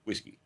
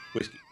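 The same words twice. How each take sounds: First: Texan drawl on Whiskey; Texas accent. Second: Texan drawl on Whiskey again; Texas accent. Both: Shown as a demonstration. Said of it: "is my Texas accent showing".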